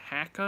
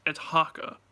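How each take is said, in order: First: "Haka" with a short a, as in "hack"; mispronounced haka. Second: "haka" with an open "ah", as in "hah-ka"; corrected haka pronunciation. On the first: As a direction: say "Haka" like "hacka". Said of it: "And he said". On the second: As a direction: correct it firmly, opening the first vowel of "haka" to "ah". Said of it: "And I was like". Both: Retold or imitated.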